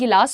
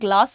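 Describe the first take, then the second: First: An extra vowel separates the g and l. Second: The g and l are said together. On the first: The speaker calls it wrong. "Instead of saying" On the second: The speaker calls it right. "हम कहेंगे can I get a ग्लास of water"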